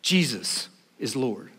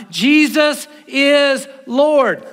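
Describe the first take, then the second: First: Quiet solemn. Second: Jesus is Lord, slow and loud, every word drawn out; loud proclamation. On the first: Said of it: "There's no law system that is Lord". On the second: Pastor confessing before the church, slow loud proclamation. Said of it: "I confess with my mouth". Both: Shown as a demonstration.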